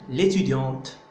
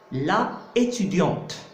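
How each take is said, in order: First: The first vowel is dropped and words merge. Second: Both vowels are kept, two separate syllables. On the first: The speaker calls it right. "on doit absolument supprimer le A" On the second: The speaker calls it wrong. "on ne peut pas dire la étudiante"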